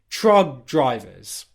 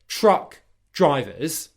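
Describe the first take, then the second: First: The first word ends in a g sound. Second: The first word ends in a k sound. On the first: "she's turned that K into a G sound" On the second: "she's taken the word truck drivers"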